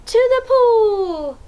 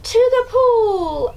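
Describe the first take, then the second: First: Put-on higher, louder, slow shout for kids to copy; yell demo. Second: Higher, louder, slow shout; yelled. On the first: Shown as a demonstration. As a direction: yell it with them. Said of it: "Can you yell that too?". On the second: A narrator's reading. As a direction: call it out eagerly. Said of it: "I yelled".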